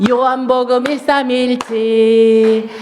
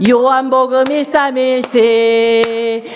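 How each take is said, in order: No difference in how they are said.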